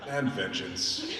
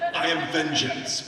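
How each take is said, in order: First: It is said in a relaxed, sleepy way. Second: It is said in a tense, intense way.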